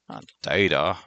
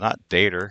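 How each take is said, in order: First: Data ends plainly, with no r sound. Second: Data ends with an added r-like sound.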